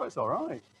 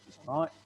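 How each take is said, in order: First: It is said with strong, emphatic enthusiasm. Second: It is said with mild, understated approval. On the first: The thing is absolutely fantastic. "if it's super fantastic, I say, oh, ... It's all about the, the intonation" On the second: The thing is great. "And I think it's great. I say"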